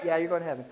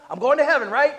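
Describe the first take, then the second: First: Said in the usual way. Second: High, insistent self-justifying; mock defensive protest. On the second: Believer refusing more of the Spirit, mock defensive. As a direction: pitch it up like a defensive objector. Resister's voice, then answered plainly.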